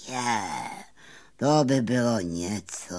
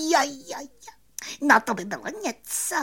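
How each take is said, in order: First: Dreamy bumblebee. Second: Very high, quick squeaky glee; excited cricket. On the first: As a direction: sigh it out with stretched vowels. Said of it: "zasnil se čmelák". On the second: Cricket thrilled at the prospect of fame, high quick excitement. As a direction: squeal it fast with delight. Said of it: "rozářil se Cvrček". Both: A narrator's reading.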